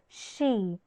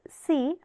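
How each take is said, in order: First: The syllable begins with a sh sound. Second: The syllable begins with a plain s sound. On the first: The speaker calls it right. "it will always be pronounced as she" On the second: The speaker calls it wrong. "You cannot pronounce s with the vowel e as c"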